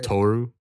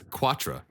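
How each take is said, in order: First: The name is said as three syllables, Katoru. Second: The name is said as two syllables, Quatra. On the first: "if you're thinking like straight out of Japanese, how they pronounce it" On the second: "derived from the French Quatra"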